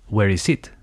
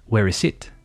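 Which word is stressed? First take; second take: it; it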